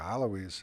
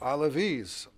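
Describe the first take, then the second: First: The name is pronounced the Arabic way. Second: The name is pronounced the Turkish way. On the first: This refers to the community in Syria. "properly pronounced the Alawis of Syria" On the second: This refers to the community in Turkey. "the Alavis of Turkey, who have the same name, pronounced differently in Arabic and Turkish"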